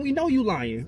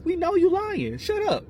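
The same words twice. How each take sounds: First: Raised, insistent pitch; exasperated accusation. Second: Very high-pitched, incredulous outburst; exasperated escalation. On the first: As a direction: call out the lie, pitched up. Calls out an imagined denial. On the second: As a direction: shoot way up in pitch to dismiss the liar. Repeats the accusation, escalating. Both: Real, not acted.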